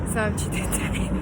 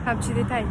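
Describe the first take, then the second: First: Laughing through the words. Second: Said in the usual way. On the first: Real, not acted. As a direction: laugh mid-phrase.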